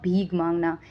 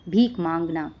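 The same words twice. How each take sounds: First: भीख said wrongly as "bheeg", with a hard g at the end; wrong pronunciation. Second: भीख said rightly as "bheekh", ending in k; correct pronunciation. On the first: Teacher showing students the wrong way to say भीख, ending it in g. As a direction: say भीख with a g sound, the mistake to avoid. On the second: Teacher giving students the right way to say भीख, ending it in k. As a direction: end भीख on a clear k sound, the right way. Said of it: "not भीख मांगना". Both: Shown as a demonstration.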